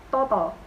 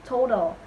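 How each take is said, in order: The two takes are said the same way.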